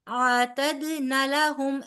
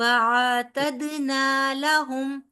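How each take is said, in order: First: The vowel of 'na' is cut short. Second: The vowel of 'na' is held long. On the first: The speaker calls it wrong. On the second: The speaker calls it right.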